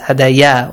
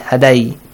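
First: The word ends with an added ya sound. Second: The word ends with an added i sound. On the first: "that's wrong" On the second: "that's wrong"

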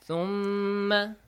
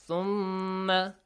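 Both takes have the same delivery.

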